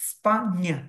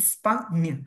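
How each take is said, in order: No difference in how they are said.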